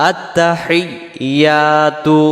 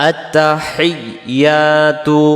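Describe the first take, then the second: The two takes are said the same way.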